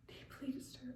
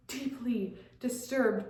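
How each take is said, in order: First: Very soft, voiceless whisper; barely audible whisper; whispered echo. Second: Said in the usual way. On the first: Acted. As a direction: whisper it to yourself. Hushed echo of her phrase.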